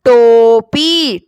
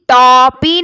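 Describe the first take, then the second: First: The first vowel is a closed 'o' sound. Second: The first vowel is an open 'aw' sound. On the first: The speaker calls it right. "ओ आवाज आ रही है" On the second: The speaker calls it wrong. "टॉपी नहीं बोल रहे हैं"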